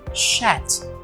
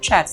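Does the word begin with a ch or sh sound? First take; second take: sh; ch. First: It begins with a soft sh sound. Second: It begins with a ch sound with a t. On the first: The speaker calls it wrong. "as pessoas falam chat, como se fosse com S H" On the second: The speaker calls it right. "a pronúncia é chat. Tem um som de um T lá"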